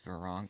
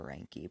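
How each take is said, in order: First: The name is pronounced with a short clipped ending. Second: The name is pronounced just as it is spelled. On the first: The speaker calls it right. "but I think it's Veronk" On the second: The speaker calls it wrong. "I used to call her Veranke, because that's just how it's spelled"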